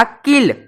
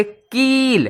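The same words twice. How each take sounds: First: किल with a short clipped i, the right way; short vowel. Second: कील with a long held ई, the wrong way; wrong long vowel. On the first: Teacher giving the correct reading of kill. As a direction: keep the i short. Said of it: "इसे पढ़ते किल". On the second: Teacher showing the wrong reading of kill. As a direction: stretch the vowel, as the mistake. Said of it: "इसे कील नहीं बोलते". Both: Shown as a demonstration.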